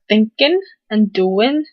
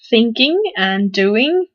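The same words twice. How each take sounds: First: The final g sounds are dropped. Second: The final g sounds are pronounced.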